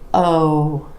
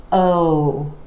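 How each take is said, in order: First: The vowel is long and stretched out. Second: The vowel is long and stretched out.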